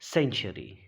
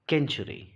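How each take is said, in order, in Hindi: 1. शब्द की शुरुआत s ध्वनि से होती है। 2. शब्द की शुरुआत k ध्वनि से होती है। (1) "सी के बाद ई आ रहा है" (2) "इसे नहीं पढ़ते केंचुरी"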